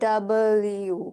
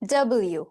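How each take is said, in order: First: The letter name is said slowly in two parts. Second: The letter name is said quickly as one word.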